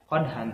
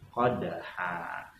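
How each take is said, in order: First: The word ends with a short vowel plus n. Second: The word ends with a lengthened vowel, no n. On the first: The speaker calls it wrong. "jangan dibaca qadhan" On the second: The speaker calls it right. "tapi qadha, ... bacanya satu alif atau dua harokat"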